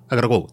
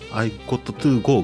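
First: The words run together quickly into one reduced chunk. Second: Each word is said fully and separately. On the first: "口語で早く言うとあがらごとかなんですよ" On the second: "I got to go みたいな感じで多分言うと思う"

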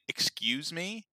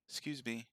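First: Every syllable is fully and carefully pronounced. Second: The first syllable is dropped, sounding like 'scuse me. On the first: It comes across as rude and condescending. The speaker calls it wrong. "if you enunciate and say, excuse me, you sound like an asshole" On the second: It comes across as casual and polite. The speaker calls it right. "if you just say, excuse me, like S-C-U-S-E"

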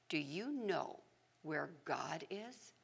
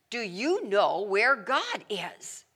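First: It is said quietly and calmly. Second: It is said in a louder voice.

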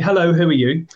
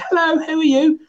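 First: It is said in a normal adult voice. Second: It is said in a small child's voice.

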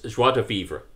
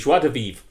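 First: Vivre ends with an added final vowel sound. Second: Vivre ends without any added final vowel sound. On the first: The speaker calls it wrong. "I did it like that because I saw the doctor say it on Voyager" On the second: The speaker calls it right. "It should be without the E"

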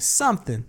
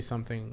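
First: The word is said with an added accent inflection. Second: The word is said flat, without added inflection. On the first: "she adds like a, like something" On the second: "I just say something like flat"

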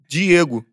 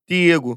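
First: It is said in his Carioca accent. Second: It is said in a Pernambucan accent.

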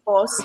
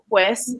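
First: The word is reduced to a short pos. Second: The word is said in full, as pues.

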